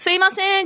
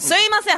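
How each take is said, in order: First: It is said in a calm, polite tone. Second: It is said in an impatient, irritated tone. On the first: A normal request for attention. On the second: The customer is demanding quick service.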